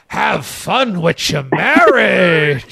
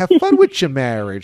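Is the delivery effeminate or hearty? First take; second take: hearty; effeminate. First: It is said in a booming, hearty broadcaster voice. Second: It is said with a soft, effeminate, chatty inflection. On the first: "the way Dave does it, it's like a hearty broadcaster" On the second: "kind of like a coffee talk, ... So it's a very effeminate, you know, inflection"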